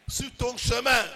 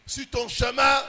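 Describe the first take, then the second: No difference in how they are said.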